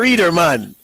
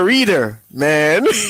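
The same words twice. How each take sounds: First: Reader man is said as one compound word. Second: A pause separates reader from man. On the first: He is not a reading type of person. "I'm not a businessman" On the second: He is a reader, addressing the listener as man. "I'm a business man"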